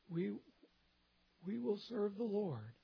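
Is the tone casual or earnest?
earnest. It sounds earnest and serious. The commitment is made sincerely and soberly. "I think it was probably more of"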